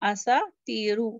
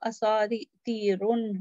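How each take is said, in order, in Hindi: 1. शब्द स्वर पर खत्म होता है, 'न' नहीं है। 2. शब्द के अंत में एक अतिरिक्त 'न' की आवाज़ जुड़ी है। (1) "अभी ये असातीरू है तो ये हल्का है" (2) "अगर ये भारी होता तो असातीरुन होता"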